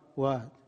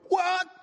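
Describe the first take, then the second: First: It sounds annoyed. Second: It sounds angry.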